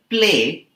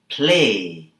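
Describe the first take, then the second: First: The P has no puff of air. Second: The P has a puff of air. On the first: The speaker calls it wrong. "The word play becomes" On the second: The speaker calls it right. "becomes play"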